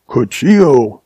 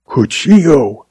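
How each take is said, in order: First: Said in the usual way. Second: Shocked gasp on Cuchillo; stunned gasp of recognition; gasped name. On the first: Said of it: "repeated Gil". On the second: A narrator's reading. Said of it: "he gasped".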